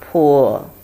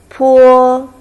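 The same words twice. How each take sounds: First: It is said with the third tone. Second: It is said with the first tone. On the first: "Third tone" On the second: "The first one"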